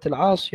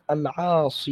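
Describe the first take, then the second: First: Said in the usual way. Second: العاصي ending in a drawn-out long ee; final long ya. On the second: Shown as a demonstration. Student showing sheikh the editor's reading, العاصي with long final ee. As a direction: say العاصي with the final ya fully sounded. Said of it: "بالياء يعني؟".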